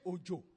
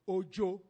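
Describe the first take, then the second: First: Said with the tone pattern of the word 'rain'. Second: Said with the tone pattern of the word 'shy'. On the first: It means rain. "that is rain" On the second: It means a shy person. "that means somebody who is shy"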